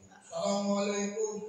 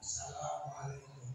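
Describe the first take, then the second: First: The greeting is said loudly. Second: The greeting is said softly.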